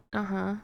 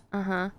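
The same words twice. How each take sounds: The two takes are said the same way.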